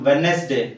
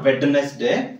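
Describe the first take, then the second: First: The middle d is not pronounced. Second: The middle d is pronounced. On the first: The speaker calls it right. "then wednesday" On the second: The speaker calls it wrong. "not wednesday"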